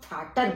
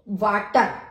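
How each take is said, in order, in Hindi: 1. इस शब्द की शुरुआत f ध्वनि से होती है। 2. इस शब्द की शुरुआत v ध्वनि से होती है।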